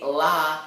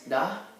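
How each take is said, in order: First: It starts with a clear L sound. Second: It starts with a quick D-like tongue flick. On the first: The speaker calls it wrong. "Please do not say la ... like with an L" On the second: The speaker calls it right. "little tongue flick kind of thing"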